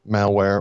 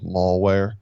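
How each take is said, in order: First: The first syllable sounds like 'mal' in 'malice'. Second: The first syllable sounds like the word 'mall'. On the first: The speaker calls it right. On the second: The speaker calls it wrong.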